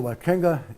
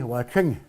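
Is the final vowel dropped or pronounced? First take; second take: pronounced; dropped. First: The final vowel is fully pronounced. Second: The final vowel is dropped. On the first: Another word follows it. "The only time we'll pronounce that fully" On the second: It is said alone, with nothing following. "the final A is, is a silent"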